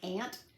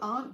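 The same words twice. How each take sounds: First: The word sounds exactly like 'ant'. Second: The word does not sound like 'ant'. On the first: "like aunt, A N T" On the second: "started using the word aunt uh, or, or pronouncing it as aunt"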